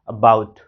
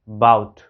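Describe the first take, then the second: First: A very light vowel comes before 'bout'. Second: The word starts directly with 'bout'. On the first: The speaker calls it right. "अ एकदम हल्का उच्चारित कर रहे हैं" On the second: The speaker calls it wrong. "बाउट नहीं बोल रहे"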